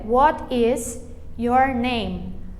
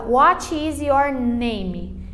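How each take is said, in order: First: It is said with an English-like accent. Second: It is said with a Brazilian Portuguese accent. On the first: The speaker calls it right. "Mas o certo é" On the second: The speaker calls it wrong. "a gente aprende meio que abrasileirado o negócio. A gente fala"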